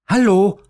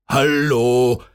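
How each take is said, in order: First: High, loud, quick chirpy hello; quick sparrow voice. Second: Lightly voiced pizza man calling. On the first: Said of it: "antwortete da der Spatz schnell". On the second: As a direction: call hello like a delivery man. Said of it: "rief der Pizzamann". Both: A narrator's reading.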